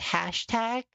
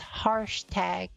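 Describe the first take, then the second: First: The first part sounds like 'hash'. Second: The first part sounds like 'harsh'. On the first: The speaker calls it right. "instead of pronouncing it as hashtag" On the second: The speaker calls it wrong. "I was pronouncing it as harsh tag"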